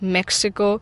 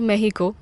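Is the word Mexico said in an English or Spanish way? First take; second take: English; Spanish. First: It is said with an English pronunciation. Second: It is said with a local Spanish pronunciation.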